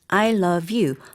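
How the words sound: Each word is separate and evenly hit. The speaker calls it wrong. "딱딱딱 I love you 하고 choppy choppy하게"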